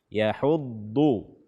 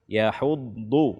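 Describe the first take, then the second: No difference in how they are said.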